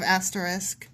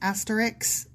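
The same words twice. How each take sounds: First: The word ends with an 'sk' sound. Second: The word ends with a 'ks' sound. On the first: The speaker calls it right. "instead of" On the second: The speaker calls it wrong. "such a fucking pet peeve when people say"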